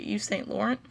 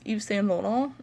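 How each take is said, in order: First: It is pronounced with American English sounds. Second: It is pronounced with French sounds. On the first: "they would probably say" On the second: "if you're pronouncing it the French way"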